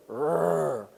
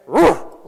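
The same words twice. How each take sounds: First: Short, soft imitated growl; little growl. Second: Sudden loud imitated snort; lion's sneezing snort. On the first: Buddy leaning in to tease the lion, soft little growl. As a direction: growl small and restrained, teasing the animal. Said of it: "make his little growl". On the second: Leo snapping his head round at the men, explosive snort. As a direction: burst out with one short, higher huff. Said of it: "The lion basically sneezed at us".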